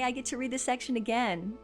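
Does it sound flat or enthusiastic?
flat. It sounds flat and unenthusiastic.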